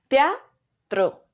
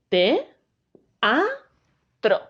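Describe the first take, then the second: First: The word is said in one smooth piece. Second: The word is broken into three separate syllables. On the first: The speaker calls it wrong. "no digo teatro" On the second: The speaker calls it right. "se pronuncian en sílabas diferentes"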